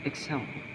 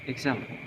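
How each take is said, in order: No difference in how they are said.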